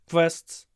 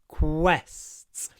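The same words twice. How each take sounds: First: Said with the mouth nearly closed, sounding v-like. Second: Said with the mouth open, giving a clear kw. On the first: The speaker calls it wrong. "If you try to pronounce the word quests with your mouth closed" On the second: The speaker calls it right. "Open your mouth"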